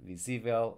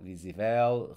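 First: Visível stressed on SÍ, light ending; visível said vi-SÍ-vel; stress on accented syllable. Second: Visível wrongly stressed as visi-VEL; visível as if unaccented, weight on VEL; stress on last syllable. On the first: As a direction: put the weight on the second syllable of visível. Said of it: "but with the accent mark". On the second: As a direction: punch the final VEL in visível. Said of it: "So without accent mark". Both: Shown as a demonstration.

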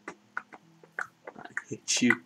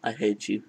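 First: Slow drawn-out whisper. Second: Said in the usual way. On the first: Acted. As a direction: breathe it out slowly. Repeating line in game.

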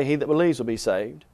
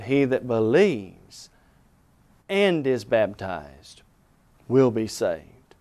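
First: Said in the usual way. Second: "He that believes and is baptized will be saved" said slow and low, leaning on each word; slow, weighty stress. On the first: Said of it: "Jesus did not say". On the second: Shown as a demonstration. Preacher to radio audience, giving the true verse slow and weighty. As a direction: drive home every word, slowly and lower. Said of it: "Jesus said".

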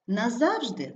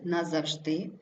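First: НаЗАВжди, falling after stressed ЗАВ; stress on second syllable. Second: НазавЖДИ, rising on stressed ending; stress on last syllable. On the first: Teacher showing double stress, stress on ЗАВ. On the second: Teacher showing double stress, stress on ЖДИ. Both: Shown as a demonstration. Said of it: "слова із подвійним наголосом".

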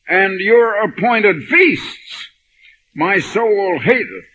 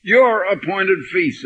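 First: "your" drawn out, higher and louder, slow; stress on your. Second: A calmer repeat pointing at "Your"; stress on your. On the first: Retold or imitated. Preacher aiming the verse at the minister, stressing "your". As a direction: make "your" the accusing word. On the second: Shown as a demonstration. Preacher explaining to his congregation, re-stressing "Your". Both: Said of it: "And I put the your".

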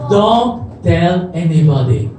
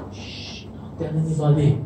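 First: Said in the usual way. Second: Shush, then low, softer voice; hushed secret warning. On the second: Retold or imitated. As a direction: hush them and keep it confidential. Shushes, repeats order as secret.

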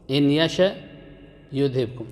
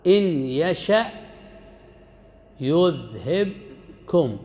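First: Said in the usual way. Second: Slowly drawn-out, chanted verse; Quran recitation. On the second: Shown as a demonstration. Teacher reciting a verse to his students, chanted and drawn out. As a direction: recite it with the last word stretched long. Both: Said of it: "يقول الله سبحانه وتعالى".

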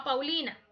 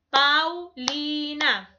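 First: Said in the usual way. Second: "Paulina" drawn out slowly, one beat per syllable; teacher's slow syllable demo of "Paulina". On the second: Shown as a demonstration. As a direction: split Paulina into slow, separate voice beats. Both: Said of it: "las sílabas es el golpecito de voz".

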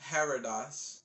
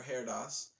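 First: Heradas as HAIR-uh-dahs; three-syllable reading. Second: Heradas as HAIR-dahs; two-syllable reading. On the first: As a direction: say Heradas with a short uh in the middle. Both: Shown as a demonstration. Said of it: "or Heradas".

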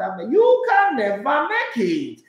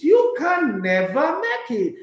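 First: Slow, higher, scornful "never"; dismissive verdict. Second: Slow, higher repeat of the verdict; mock scolding. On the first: Retold or imitated. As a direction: draw out the put-down. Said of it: "I said, "Oh, Lord". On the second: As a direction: drag out each word in scorn. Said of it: "he says, he says".

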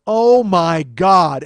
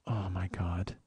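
First: Slow, drawn-out loud outburst; loud exasperation. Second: Low, soft, sinking disbelief; quiet dismay. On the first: Man typing his reply to her, loudly exasperated. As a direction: stretch every word out at full volume. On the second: Man reading her puzzled text, quietly dismayed. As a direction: let it out small and low, dismayed. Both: Retold or imitated.

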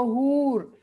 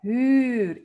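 First: 'huur' with a Spanish-style oo; drawn-out 'huur' with a back u; wrong vowel demo. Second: 'Huur' with a long rounded ü; drawn-out 'Huur', fronted ü; correct Dutch vowel. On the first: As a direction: show the mistake: 'huur' sounding like 'hoor'. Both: Shown as a demonstration. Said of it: "Huur y no huur".

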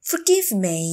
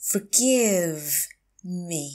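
First: Said in the usual way. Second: Drawn-out "Forgive", pause, then "me"; slow teacher model of "Forgive me"; slow, broken up. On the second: Shown as a demonstration. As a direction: stretch "Forgive" and separate "me". Teacher repeats phrase slowly.

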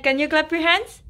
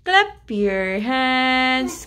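First: Quick question rising on HANDS; coaxing question. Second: Very slow, stretched "Clap your hands"; drawn-out singsong instruction; slow prompt. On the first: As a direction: ask brightly with a lift on "hands". Parent coaxing baby to clap. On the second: Parent repeats it as slow chant. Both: Real, not acted.

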